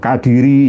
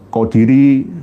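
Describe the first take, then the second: First: The first vowel sounds like 'a'. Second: The first vowel sounds like 'o'. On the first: The speaker calls it right. "yang benar itu Kadiri" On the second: The speaker calls it wrong. "bukan Kodiri"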